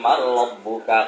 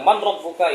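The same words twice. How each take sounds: First: The n is merged into the following r. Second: The n is sounded clearly before the r. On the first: The speaker calls it right. "Harusnya dibaca man rabbuka" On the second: The speaker calls it wrong. "jangan juga nanti dibilang man rabbuka, ih malaikat salah"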